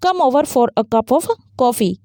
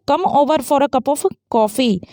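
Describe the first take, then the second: First: Slow invitation, "come" stressed, tune falling before "coffee". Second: Slow invitation, "over" stressed, tune falling. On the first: Teacher repeating the invitation for students, slow and falling. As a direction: invite them warmly, dropping the tune. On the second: Teacher showing students an invitation, slow and falling. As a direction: invite a friend over, letting the tune settle down. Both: Shown as a demonstration. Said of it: "यहाँ भी falling होगा coffee से पहले".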